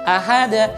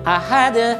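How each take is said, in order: No difference in how they are said.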